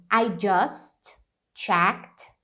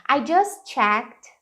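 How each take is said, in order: First: "I just", T held unreleased, then "checked"; T held before a break. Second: "just checked" run together, T not exploded; words linked. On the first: Teacher showing learners the unexploded T, separated "just checked". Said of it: "você não precisa explodir o T". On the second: Teacher showing learners how to link, "just checked" joined. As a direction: slide "just" straight into "checked", slowly. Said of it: "Você pode emendar". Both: Shown as a demonstration.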